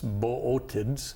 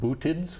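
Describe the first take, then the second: First: The start has two separate vowels, bo-oh. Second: The start is one long vowel, boo. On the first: The speaker calls it right. "but it's boötids" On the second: The speaker calls it wrong. "It looks like bootids"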